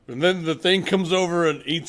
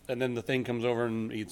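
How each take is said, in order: First: It is said in a documentary narrator voice. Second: It is said in an ordinary conversational voice.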